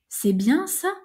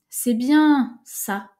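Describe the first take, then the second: First: It runs straight through with no pause before ça. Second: Bien is stretched, then a pause before ça. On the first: The speaker calls it wrong. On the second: The speaker calls it right.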